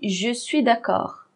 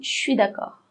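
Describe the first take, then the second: First: Both words 'je suis' are said fully and separately. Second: 'Je suis' is squeezed into one short syllable. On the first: "elle ne prononce pas exactement comme ça" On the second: "Comment est-ce qu'elle prononce?"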